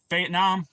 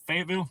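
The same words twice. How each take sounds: First: Fayetteville said as "Fayette-Nam"; nickname pronunciation. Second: Said in the usual way. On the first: Shown as a demonstration. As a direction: end Fayetteville in "nam" instead of "ville". Nickname said, then the usual name.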